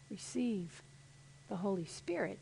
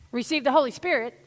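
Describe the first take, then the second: First: It is said softly, with gentle breath. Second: It is said forcefully, with strong energy. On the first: The speaker calls it right. "gentle like that" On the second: The speaker calls it wrong. "Not like this"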